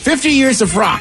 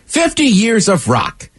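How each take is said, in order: First: It is said quickly, as fast as possible. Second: It is said at an ordinary reading pace.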